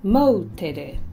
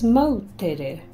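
First: The name is said in three syllables, like 'mow-teh-reh'. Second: The name is said in three syllables, like 'mow-teh-reh'.

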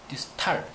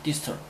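First: The last syllable is said with an 'ah' vowel. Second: The last syllable is said with an 'uh' vowel. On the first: The speaker calls it wrong. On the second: The speaker calls it right.

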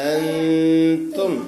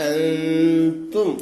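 No difference in how they are said.

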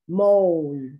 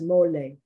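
First: The word ends without a final vowel sound. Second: The word ends with a sounded final vowel. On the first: "in English, of course, you don't pronounce the last E" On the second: "In Spanish, you would pronounce this mole"

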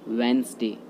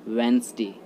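First: The word is said with two syllables. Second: The same.

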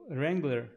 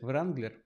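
First: The brand name is pronounced the American way. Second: The brand name is pronounced the Ukrainian way.

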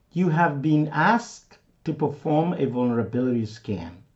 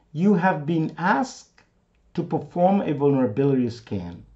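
The two takes are said the same way.

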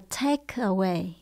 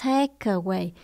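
The two takes are said the same way.

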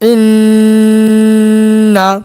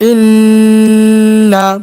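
No difference in how they are said.

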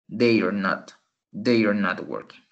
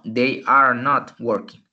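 First: They are is contracted into one syllable. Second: They are is said as two full words. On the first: "como hay una contracción" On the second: "si no hubiera contracción"

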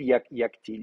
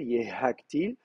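First: The h sound is dropped, giving yaktil. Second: A breathy h sound is pronounced after ye. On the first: "ça devient yaktil" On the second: "si vous faites l'effort, vous soufflez, vous le prononcez"

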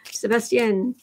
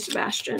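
First: The name is said with a French accent. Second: The name is said with an English accent. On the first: The speaker calls it right. "A fake French accent will go a long way to pronounce my name correctly" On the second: The speaker calls it wrong. "it's like not my name"

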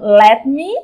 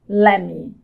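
First: The two words are said separately and fully. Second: The two words run together into one reduced word.

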